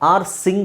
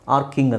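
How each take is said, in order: First: The middle consonant is an s sound. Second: The middle consonant is a k sound. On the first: The speaker calls it wrong. "R ಸಿಂಗ್ ಆಗಬೇಕು ತಾನೆ ಇದ್ರ ಪ್ರಕಾರ" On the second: The speaker calls it right. "R ಕಿಂಗ್ ಅಂತ ಹೇಳ್ತೀವಿ"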